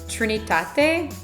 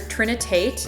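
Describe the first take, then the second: First: The name is pronounced with Spanish sounds. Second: The name is pronounced with English sounds.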